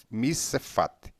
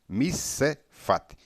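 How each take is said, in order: The two takes are said the same way.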